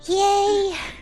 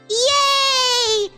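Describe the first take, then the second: First: It is said in a Fluttershy impression. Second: It is said in a plain voice.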